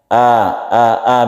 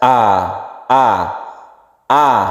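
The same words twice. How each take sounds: First: The vowel is casual and not from the throat. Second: The vowel is firm, open, from deep throat. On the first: The speaker calls it wrong. "a a a biasa itu" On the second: The speaker calls it right. "harus tegas, a a a itu terbuka"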